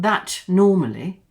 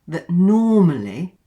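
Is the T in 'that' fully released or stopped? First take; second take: released; stopped. First: The T in 'that' is fully released. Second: The T in 'that' is stopped, not released. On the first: The speaker calls it wrong. "not that normally" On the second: The speaker calls it right. "we have what's called a stop T"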